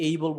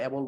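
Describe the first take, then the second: First: "able" as "AY-bol", gliding first vowel; correct native pronunciation. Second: "able" as "abol", short "a" as in apple; local mispronunciation. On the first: Teacher contrasts with our habit, "able" as "AY-bol". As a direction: open "able" on a full "ay". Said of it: "এই যে able বলতেছি". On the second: Teacher shows learners their habit, "able" as "abol". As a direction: say "able" without the "ay" glide. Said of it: "আমরা able বলতেছি". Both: Shown as a demonstration.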